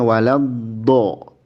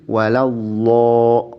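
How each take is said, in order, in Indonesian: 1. Konsonan kuncinya adalah bunyi D tebal seperti huruf dal. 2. Konsonan kuncinya adalah bunyi L biasa. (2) "itu lam"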